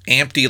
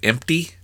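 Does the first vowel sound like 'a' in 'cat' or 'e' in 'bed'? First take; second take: a (cat); e (bed). First: The first vowel sounds like the 'a' in cat. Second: The first vowel sounds like the 'e' in bed.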